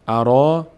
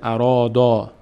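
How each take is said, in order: First: The final d is said light and thin. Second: The final d is said heavy and full. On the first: The speaker calls it right. "دال پر خوانده نمیشه" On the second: The speaker calls it wrong. "نمیشه ارادا"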